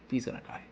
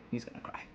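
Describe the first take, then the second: First: Said in the usual way. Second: Breathy whisper, almost gone; whispered to himself. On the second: Real, not acted. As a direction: drop to a hushed whisper. Repeating the prediction, fading.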